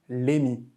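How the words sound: The name begins with an l sound. This is how Korean readers say the name. "le prononcent toujours Lémi"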